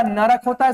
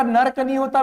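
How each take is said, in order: First: नरक in two syllables, na-rak; correct pronunciation. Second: नर्क with र and क run together; no vowel after the र in नर्क; wrong pronunciation. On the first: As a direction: put a vowel between र and क in नरक. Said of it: "नर्क नहीं होता बेटा". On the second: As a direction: say नर्क as one syllable, nark. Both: Shown as a demonstration.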